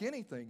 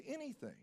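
First: Kids' retold question, a touch higher; lightly incredulous echo of the offer. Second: High, soft retold answer; soft confirmation. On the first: Kids question the store owner's offer. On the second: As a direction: gently assure them, pitched up and hushed. Owner confirms his offer to kids.

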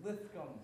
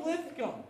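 First: Lithcom said with a lisp on the s sound. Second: Said in the usual way. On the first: Shown as a demonstration. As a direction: lisp the name Lithcom, tongue between teeth. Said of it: "I guess you have to say it with a lisp". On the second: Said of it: "say it with a lisp".

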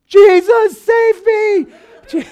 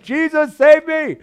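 First: High, loud desperate scream for help; panicked yell. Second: Higher, louder cry for help, less than the first; retold cry. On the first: Retold or imitated. Pastor reliving his bike crash, screaming for help. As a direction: cry out as if crashing downhill. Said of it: "I just started yelling". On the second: Pastor recalling his bike prayer, a milder cry. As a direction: call out to Jesus again in the retelling. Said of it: "And I'm like".

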